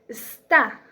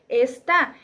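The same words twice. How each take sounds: First: The first vowel is dropped, starting on the S. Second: The first vowel is kept, giving the full word. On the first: "en la segunda se elimina la vocal" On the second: "en la primera se utiliza la palabra completa"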